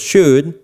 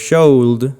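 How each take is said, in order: First: No L sound is heard in the word. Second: An L sound is heard in the word. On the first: The speaker calls it right. "sino digo should" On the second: The speaker calls it wrong. "No digo should"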